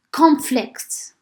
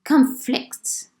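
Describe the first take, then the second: First: CON-flict, with the stress on the first syllable of "conflict". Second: Con-FLICT, with the stress on the second syllable of "conflict". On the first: Teacher showing noun "conflict" to students, stressed on the first syllable. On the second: Teacher showing verb "conflict" to students, stressed on the second syllable. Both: Shown as a demonstration. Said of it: "stress at the beginning and stress at the second".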